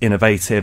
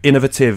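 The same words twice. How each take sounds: First: The word is said the American way. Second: The word is said the British way. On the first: "the U S A is" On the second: "is the British way"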